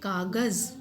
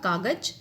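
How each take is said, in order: First: The final consonant is said with a buzzing vibration. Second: The final consonant is plain, without vibration. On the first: "एक विशेष लहर के साथ, vibration के साथ" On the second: "अगर हम इसमें नुक्ता नहीं लगाएंगे तो ये होगा कागज"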